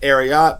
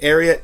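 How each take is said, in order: First: It does not sound like the end of Secretariat. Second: It sounds like the end of Secretariat. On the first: The speaker calls it wrong. "Some people pronounce it Ariat" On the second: The speaker calls it right. "it's definitely Ariat, as in Secretariat the horse"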